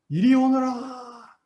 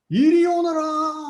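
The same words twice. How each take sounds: First: It is shouted loudly. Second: It is shouted even more loudly.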